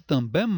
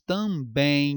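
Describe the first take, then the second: First: TAMBÉM with the M as a full consonant; wrong pronounced M. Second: TAMBÉM ending in a long nasal ei glide; usual pronunciation. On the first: Teacher supposing a consonant, TAMBÉM ending in m. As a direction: close também on a released m. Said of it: "esse M ... seria uma consoante". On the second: Teacher showing real speech, TAMBÉM as loud drawn-out tambẽin. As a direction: stretch também into tambẽin, lips left open. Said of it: "Porém, nós falamos também". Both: Shown as a demonstration.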